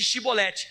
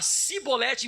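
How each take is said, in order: First: The word begins with an sh sound. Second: The word begins with an s sound. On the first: The speaker belongs to the group. The speaker calls it right. "Eles não conseguiam falar a palavra Shi" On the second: The speaker belongs to the other group. The speaker calls it wrong. "eles só falavam si"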